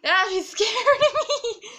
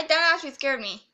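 First: Loud, high, laughing through the words; laughing after fright. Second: Said in the usual way. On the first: Real, not acted. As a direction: let nervous laughter break up the line. Repeats it laughing after scare.

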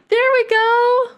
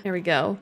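First: High, loud, slow delighted squeal; excited squeal. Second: Said in the usual way. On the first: Real, not acted. Baby finally grabs rattle. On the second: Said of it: "same phrase said later squealing".

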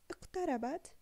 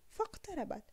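First: اقتربت opened with a clear glottal hamza, "iqtarabat". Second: فاقتربت run together, the first alif silent, "faqtarabat"; without the hamza. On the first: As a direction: start اقتربت with a sounded "i". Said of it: "هل لفظنا هذه الهمزة في بداية الكلمة". (اقتربت بنطق همزة الوصل في أول الكلمة) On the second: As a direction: say فاقتربت linking straight from the fa to the qaf. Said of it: "فنقول". (فاقتربت بدون نطق الهمزة) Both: Shown as a demonstration.

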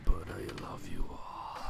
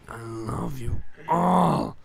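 First: Slow whispered affection. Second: Loud, slow, drawn-out declaration. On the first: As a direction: whisper it slowly to the audience. Whispered aside to viewers. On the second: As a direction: belt it out, stretching the words. Same words, louder and drawn out. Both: Pretend.

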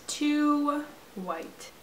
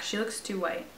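First: Mock high voice. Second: Said in the usual way. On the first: Gamer mocking her character's skin tone in a high voice. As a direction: echo it back high and put-on. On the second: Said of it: "repeats the phrase".

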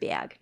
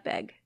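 First: "bag" with a gliding A, like "byag"; raised short A. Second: "bag" with an EH sound, like "beg"; Milwaukee vowel. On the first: Showing her own hometown vowel, "bag" as "byag". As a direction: say "bag" as "bee-ag". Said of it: "Bag, not bag". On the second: Rejecting the Milwaukee version, "bag" said like "beg". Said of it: "That's a Milwaukee thing". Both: Shown as a demonstration.

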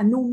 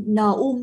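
First: "num" blended as one syllable; joined pronunciation. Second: "n um" in two separate pieces; split pronunciation. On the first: Teacher showing students the merged reading, "num" as one syllable. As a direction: run n straight into "um" to make "num". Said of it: "các bạn sẽ là num luôn". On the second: Teacher showing students what to avoid, "n um" split. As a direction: keep the n apart from "um" in "n um". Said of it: "các bạn không n um nữa". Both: Shown as a demonstration.

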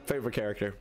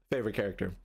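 No difference in how they are said.

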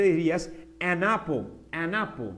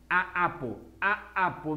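First: "an apple" run together smoothly as one word; linked, relaxed. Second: "a apple" with a choppy gap between the two vowels; ugly break. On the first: Teacher shows students the easy link, "an apple" joined smoothly. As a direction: glide the n of "an" straight into "apple". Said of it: "más tranquilamente". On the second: Teacher shows students the wrong form, "a apple" broken between vowels. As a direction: cut "a" off before starting "apple". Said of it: "Mira el corte feo que hay ahí". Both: Shown as a demonstration.

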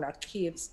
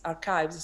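First: "archives" slipped into "a-keevs"; mispronounced archives. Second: "archives" corrected to "AR-kives"; corrected pronunciation. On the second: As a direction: say "archives" with a k and a long i, as "AR-kyvz". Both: Real, not acted.

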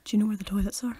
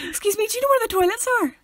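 First: Low, subdued question; lowered, ominous enquiry; eyebrows-down menace. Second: High, bright, cheerful question; high-pitched chirpy enquiry; eyebrows-up happy. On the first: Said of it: "if the eyebrows are down". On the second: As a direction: ask it pitched way up, happily. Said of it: "If the eyebrows are up, you sound happier". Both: Shown as a demonstration.

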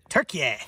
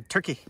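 First: Turkey said as "tur-kee-YAY"; Turkish-style pronunciation. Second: Said in the usual way. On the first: Shown as a demonstration. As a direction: add an "ay" ending to Turkey. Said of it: "pronounce it Turkey now". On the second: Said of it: "I think they want you to pronounce it".

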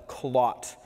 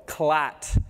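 First: "clot" said slowly with a clear O; rounded O. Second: "Clat" with a flat A in place of the O; flattened vowel. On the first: Dentist warning about Jamaican slang, "clot" with a distinct O vowel. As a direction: pronounce the O in "clot". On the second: Dentist showing the Creole slip, "Clat" with an open A vowel. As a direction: say "Clat" slowly, vowel like "cat". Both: Shown as a demonstration. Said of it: "Pronounce the O".

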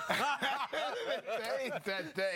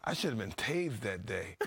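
First: Slow high laughing repeat. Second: Said in the usual way. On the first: Real, not acted. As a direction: laugh it out, drawn out. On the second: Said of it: "laughs I should have been tased".

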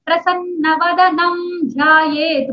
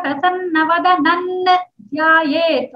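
First: Slow chant of "प्रसन्न वदनम ध्यायेत" with an m sound; chanted, usual way. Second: "वदनन" said with n before "ध्यायेत"; slow correct samhita form; संहिता पाठ. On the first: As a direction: chant it slowly the common way. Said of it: "बोलते". (chanted, आम तरीके से धीमा पाठ) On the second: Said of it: "होगा संहिता पाठ". (संहिता पाठ वाला उच्चारण) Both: Shown as a demonstration.

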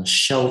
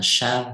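First: "show" with a long o, rhyming with "go"; "show" pronounced with an "oh" vowel; correct vowel in show. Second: "show" misread with an "ow" vowel, like "shau"; wrong "ao" sound in "show", giving "shau"; mispronounced show. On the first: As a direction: say "show" with the o sound, as in "no". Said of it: "mình đọc là show". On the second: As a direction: say "show" wrongly to rhyme with "cow". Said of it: "chứ không đọc là shout". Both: Shown as a demonstration.

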